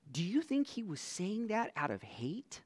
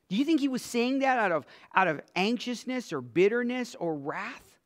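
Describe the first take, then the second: First: Said in the usual way. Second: Faster and louder, pushing the question; pressing harder. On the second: Acted. Preacher pushes the congregation with a quicker, louder question.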